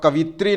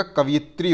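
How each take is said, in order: First: कवित्री said a bit louder, as the error; wrong form, louder. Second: कवयित्री said slowly with each syllable, य clear; correct form, slower. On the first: Teacher correcting students, marking the wrong word. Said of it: "कवित्री नहीं होता". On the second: Teacher correcting students, giving the right word. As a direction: stress the य in कवयित्री. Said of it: "ध्यान रखिएगा". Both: Shown as a demonstration.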